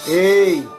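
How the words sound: It is shouted at a medium pitch.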